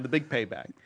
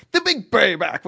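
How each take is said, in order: First: Said in the usual way. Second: Higher, louder funk shout. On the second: Acted. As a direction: belt it like a soul singer.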